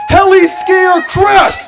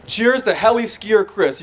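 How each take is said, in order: First: Loud, slow, rising cheer; toast shout. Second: Said in the usual way. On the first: Shown as a demonstration. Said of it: "raise your glasses up and say". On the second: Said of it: "for example".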